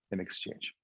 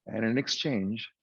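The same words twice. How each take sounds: First: Whispered aside. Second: Said in the usual way. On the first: Acted. Genie's bargain, echoed under breath.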